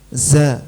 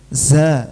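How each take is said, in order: First: The z is said with an audible hiss of air. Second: The same.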